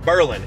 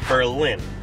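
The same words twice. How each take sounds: First: The stress falls on the first syllable. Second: The stress falls on the second syllable. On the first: This is the local name of the New Hampshire town. The speaker calls it right. "It's Berlin" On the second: This is how the German city is said. The speaker calls it wrong. "it's not Berlin"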